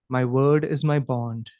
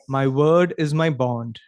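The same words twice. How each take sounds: First: It is spoken in a softer voice. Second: It is spoken at a normal volume.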